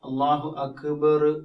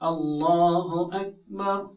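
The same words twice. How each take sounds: First: A short vowel follows the consonant. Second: The consonant is closed with no added vowel. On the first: The speaker calls it wrong. "അപ്പൊ അതൊരു അഭംഗിയാണ്" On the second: The speaker calls it right. "അക്ബർ എന്നേ ഉള്ളൂ"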